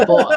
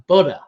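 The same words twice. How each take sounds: First: "Butter" said the British way, a crisp t and no r at the end; "Butter" with a hard t and a dropped final r, pitched high and a bit louder; the Brit's "Butter," t clearly sounded, no r. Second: "Butter" the American way, the middle t softened to a d and a clear r at the end; "Butter" said "budder," r-coloured ending; the American friend's "Butter," flapped t and r sounded. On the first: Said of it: "we say butter". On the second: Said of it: "He was like". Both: Retold or imitated.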